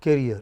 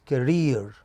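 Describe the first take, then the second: First: The stress is on the first syllable. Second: The stress is on the second syllable. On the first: The speaker calls it wrong. "it is not career" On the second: The speaker calls it right. "it is career"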